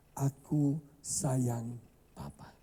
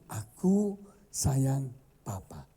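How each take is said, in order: First: Put-on slow, gentle read of the child's words; tender reading. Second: Slow and gentle; tender reading. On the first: Preacher reading the child's note to the congregation, tender and slow. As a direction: let it land softly. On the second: Preacher repeating the child's note, tender and slow. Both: A narrator's reading.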